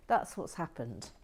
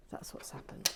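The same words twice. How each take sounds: First: Said in the usual way. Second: Unvoiced whisper repeat; hushed self-talk. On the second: Real, not acted. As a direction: whisper it to calm down. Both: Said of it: "I've just gone a little bit giddy".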